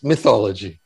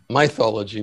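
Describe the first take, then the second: First: The word is said in the standard pronunciation. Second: The word is said in an imitated, unusual pronunciation. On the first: This is the usual way to say it. "but it's mythology" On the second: This copies how someone else said it. "That's how he pronounced it"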